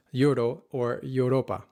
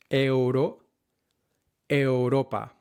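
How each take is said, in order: First: Euro with an English "you" start; euro, English accent. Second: Euro as e-u-ro, no English y; correct Spanish euro. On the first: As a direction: Europa the English way. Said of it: "are not pronounced". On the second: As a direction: Europa with a pure Spanish eu. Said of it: "are not pronounced ... but". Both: Shown as a demonstration.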